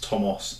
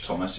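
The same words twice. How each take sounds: First: The name has a Welsh pronunciation. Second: The name has an English pronunciation. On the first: The speaker calls it right. "the Welsh pronunciational spelling" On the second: The speaker calls it wrong. "It's not Thomas as in the English Thomas"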